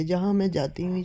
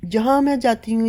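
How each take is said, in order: First: Said in the usual way. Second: جہاں said high and loud, punched; emphatic first take. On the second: Real, not acted. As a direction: hit جہاں hard and high. Repeats phrase, first emphatic.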